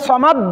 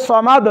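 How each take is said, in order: First: সমাদ stopped dead on an unreleased d; no qalqalah. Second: সমাদ with a bouncing, echoed final d; qalqalah. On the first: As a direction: shut the final d of সমাদ without echo. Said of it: "ডালটা কলকলা হয় না". (সমাদ-এর দাল কলকলা ছাড়া) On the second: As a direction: release the d of সমাদ with a little echo. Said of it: "দাল এটা হচ্ছে কলকলার হরফ". (সমাদ-এর দালে কলকলা করে) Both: Shown as a demonstration.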